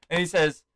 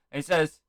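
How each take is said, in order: Both takes have the same delivery.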